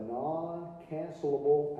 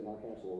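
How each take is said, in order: First: NON-CANCELABLE drawn out slowly; slow, careful enunciation. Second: "non-cancelable" run through quickly, softer; quick, low toss-off of "non-cancelable"; said fast. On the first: Lecturer to accountants on lease term, slow and careful on "non-cancelable". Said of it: "I have to say that real slow". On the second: Lecturer admitting the word trips them up, saying "non-cancelable" fast. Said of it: "can't say non-cancelable real fast". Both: Real, not acted.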